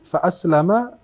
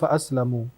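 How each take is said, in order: First: The last word ends with an 'a' vowel. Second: The last word ends with a 'u' vowel. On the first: The companion spirit has submitted to the faith. "Boleh dibaca dengan dua harakat" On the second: I am kept safe from its temptation. "kalau dibaca dengan dhammah fa aslamu"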